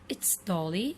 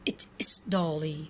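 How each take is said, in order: First: The words it is merge into it's. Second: The words it is are said separately. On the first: "But here will become like that" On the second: "He said"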